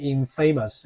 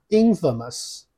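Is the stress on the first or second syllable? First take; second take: second; first. First: The stress is on the second syllable. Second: The stress is on the first syllable. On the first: The speaker calls it wrong. "它不念infamous" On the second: The speaker calls it right. "这个字念infamous"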